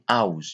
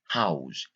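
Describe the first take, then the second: First: The word begins with a vowel, no H sound. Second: The word begins with an audible H sound. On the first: The speaker calls it wrong. "We don't say house" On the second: The speaker calls it right.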